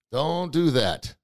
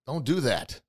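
First: DON'T DO THAT stretched slowly; slow right down, stretching each word; drawn-out warning. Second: Said in the usual way. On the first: Real, not acted. Host warning listeners not to challenge God, drawn out.

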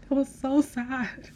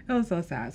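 First: High and slow, with a laugh in it; a real laughing sigh over a sad scene; laughing sadly. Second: Said in the usual way. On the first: Real, not acted. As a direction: lament it while half laughing.

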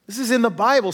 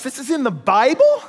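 First: "Bible" with a falling, settled tune; flat affirmation. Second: "Bible" with a rising, disbelieving tune; incredulous question. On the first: Preacher confirming to the congregation, falling "Bible". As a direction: state "This is in the Bible." firmly, falling. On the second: Preacher feigning surprise to the congregation, rising "Bible". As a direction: ask "this is in the Bible?" in shock, rising. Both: Acted.

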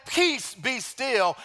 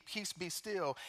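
First: "Peace, be still" drawn out very slowly, each word weighted; Jesus commanding the storm from the boat, slow and weighty; slow commanding proclamation. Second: Jesus rebuking the sea, softly; soft rebuke. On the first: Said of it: "standing on the boat, saying". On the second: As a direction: quietly still the sea. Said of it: "rebuked the wind and said to the sea". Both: Acted.

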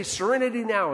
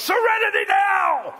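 First: Said in the usual way. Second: High, explosive yell in imitation of Frank Costanza; top-of-lungs yell. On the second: Preacher imitating Frank Costanza in an argument, yelling at full volume. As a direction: bellow it like a frazzled sitcom dad. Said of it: "he just yells at the top of his lungs".

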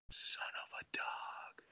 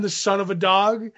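First: Slow, hushed mock-discreet whisper; imitating a polite, drawn-out whisper; voice dipped politely. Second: Said in the usual way. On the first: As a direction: drop right down to a slow whisper, as if too rude to say aloud. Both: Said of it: "dipping his voice to be polite".

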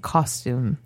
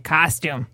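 First: "Costume" low, as "CAWS-toom"; rounded "aw" in "Costume"; correct "costume". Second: "costume" with a flattened first vowel, "cas-tyoom"; Midwestern "costume". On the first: Showing friends the proper way, "Costume" as "caws-toom". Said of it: "He actually says it right". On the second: Showing the local mistake, "costume" as flattened "cas-toom". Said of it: "Instead of costume". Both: Shown as a demonstration.

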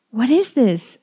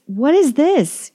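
First: Loud, higher anguished cry. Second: Much higher, louder, slow anguished cry. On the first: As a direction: demand it in horror. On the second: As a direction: break into a desperate howl of the question. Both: A narrator's reading. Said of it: "he cries".

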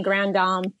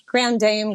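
First: GRAND DAME as "grahn dahm"; French-style "Grand Dame", Dame like "psalm"; French pronunciation. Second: GRAND DAME with DAME rhyming with "name"; anglicized "Grand Dame"; English pronunciation. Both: Shown as a demonstration. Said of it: "a lot of ways you can pronounce it".

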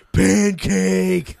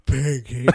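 First: Put-on loud, excited toddler voice; toddler shout. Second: Put-on loud toddler word. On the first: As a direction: belt it like a little kid. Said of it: "Like that". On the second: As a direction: say it like a little kid. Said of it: "she goes".

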